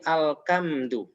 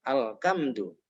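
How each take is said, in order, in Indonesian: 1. Konsonan tengah itu adalah k. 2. Konsonan tengah itu adalah k.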